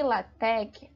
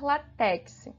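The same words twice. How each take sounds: First: The word ends with a plain k sound. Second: The word ends with a ks sound. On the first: The speaker calls it right. "a gente pronuncia" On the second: The speaker calls it wrong. "ao invés de falar"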